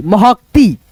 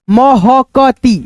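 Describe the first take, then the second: First: Said in the usual way. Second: Very slow syllables; महकती slowly sounded out; sounding out. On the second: Shown as a demonstration.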